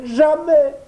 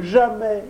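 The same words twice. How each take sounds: First: "jamais" cried highest and loudest, the top of the climb; peak jamais. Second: "jamais" said high, the first of three rising cries. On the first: Pinocchio begging the fairy, final "jamais" cried out. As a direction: let the last "jamais" break out at the top. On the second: Pinocchio begging the fairy, first "jamais" high. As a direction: start the "jamais" climb here. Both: A narrator's reading. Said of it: "il disait".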